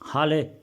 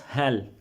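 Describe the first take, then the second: First: The vowel is long, like in 'hail'. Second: The vowel is short, like in 'hell'. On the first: The speaker calls it wrong. "No, it's not pronounced hal or hale" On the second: The speaker calls it right. "It's pronounced hel"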